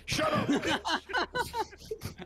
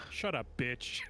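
First: Shrill slow falsetto stretch; very high drawn-out squeal. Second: Said in the usual way. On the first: Shown as a demonstration. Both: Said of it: "repeated differently".

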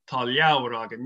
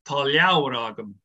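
First: "Tá leabhar agam" said again with the same Irish sounds, a touch lower; Irish Gaelic phrase repeated. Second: "Tá leabhar agam" spoken in Irish, leabhar said as two syllables, lyow-ar, with the stress on it; Irish Gaelic phrase. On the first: Repeating "Tá leabhar agam" so the podcast listeners catch it, in Irish. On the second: Demonstrating "Tá leabhar agam" for the podcast listeners, in clear Irish. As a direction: say "Tá leabhar agam" with a falling close, as a native would. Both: Shown as a demonstration. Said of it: "please give us a little Irish Gaelic".

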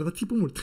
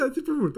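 First: Said in the usual way. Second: Țipă said higher and louder; stress on țipă. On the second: Shown as a demonstration. Lecturer repeating the joke, țipă pitched higher and louder. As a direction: punch the word țipă. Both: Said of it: "repeated punchline".

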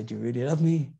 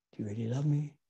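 First: Said in the usual way. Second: Softer, gentler second asking; softer repeat. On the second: Acted. Jesus asking Peter a second time, softer. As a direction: ask again, softly and tenderly.

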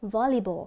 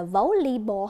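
First: "volleyball" begun VOL, open short O; plainly spoken "volleyball" with short first O. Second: "volleyball" begun VOH, O as in go; wrong long O. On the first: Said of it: "Và chúng ta đọc là". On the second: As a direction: mispronounce "volleyball" as VOH-lee-ball. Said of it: "Không đọc như vậy đúng không?". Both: Shown as a demonstration.

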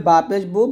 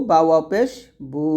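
First: Final বু short, not stretched; short vowel. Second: Final বু held long after a small pause; madd stretch. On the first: Teacher shows pesh before its madd, short বু. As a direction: keep the vowel of বু brief. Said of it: "যদি আমরা পেশ দিয়ে বলি". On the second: Teacher shows madd with pesh, long-held বু. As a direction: draw out the vowel of বু. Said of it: "এরকম". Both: Shown as a demonstration.

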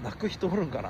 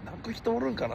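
First: Said in the usual way. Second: Higher musing repeat. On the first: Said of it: "泣く人おるんかなって。". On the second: Real, not acted. Streamer asking chat if anyone would cry, higher and softer.

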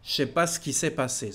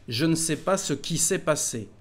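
First: Quick, with the ne dropped and "Je sais" slurred to "chais"; fluent casual French. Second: Said in the usual way. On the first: Shown as a demonstration. Teacher demonstrating the fluent spoken version, quick and relaxed. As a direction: say it fast and easy, like everyday talk. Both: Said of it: "When you speak fluently".

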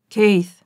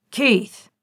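First: Loud call from across the house; booming call. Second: Sharp, loud angry bark of a name; harsh and sharp. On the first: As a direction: summon him from afar, loudly. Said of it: "His father's voice rumbled through the entire mansion". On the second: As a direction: snap the name like a command. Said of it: "The name was harsh and sharp". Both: A narrator's reading.

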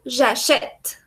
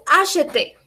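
First: "j'achète" ending on the t, last e silent; present-tense pronunciation. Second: "acheter" ending in a clearly sounded final é; infinitive pronunciation. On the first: Teacher models the present for a student, final E silent. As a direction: stop "j'achète" at a crisp final t. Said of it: "Cuando conjugo al presente digo". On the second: Teacher models the infinitive for a student, final E sounded. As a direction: say "acheter" with the last E voiced. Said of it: "El infinitivo es acheter". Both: Shown as a demonstration.

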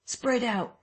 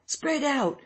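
First: High urgent call; crying out. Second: Even higher repeated call; crying out. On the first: Someone in the crowd calls to the chasers, high. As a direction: shout orders to the chasing crowd. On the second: Someone in the crowd repeats the order, pitched even higher. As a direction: push the order up higher a second time. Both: Acted. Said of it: "cried someone".

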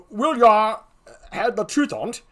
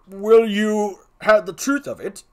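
First: Higher rustic "will ya" take; folksy put-on gravedigger; comic clown with slurred country wording; second clown. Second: Higher, louder put-on clown; forceful character voice; second clown. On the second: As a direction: confide the truth as a comic gravedigger.

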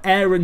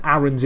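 First: "Aaron" opening like the word "air"; AIR-on pronunciation. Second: "Aaron's" opening on a short, open A; short-A pronunciation. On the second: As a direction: say "Aaron's" with the vowel of "cat". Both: Shown as a demonstration. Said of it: "sounds a lot better than Aaron's".

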